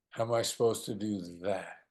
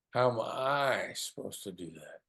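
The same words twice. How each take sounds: First: Weight moved onto "do that", stretched at the end; quicker "How am I", then lean on "that"; different emphasis. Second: "How am I" drawn out slow and weighted; different emphasis. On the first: Coach repeating the question to the other side, stress late on "do that". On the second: Coach repeating the question to the other side, stress early on "How am I". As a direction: lean slowly on "How am I", then ease through the rest. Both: Shown as a demonstration. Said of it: "different emphasis on different words".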